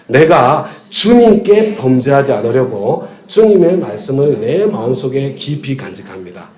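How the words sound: The stress is on 주님께.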